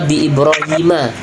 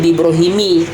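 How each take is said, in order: First: The name ends with a short 'a' sound. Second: The name ends with a short 'i' sound. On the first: The speaker calls it right. "Maka bi Ibrahima" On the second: The speaker calls it wrong. "tidak boleh bi Ibrahimi"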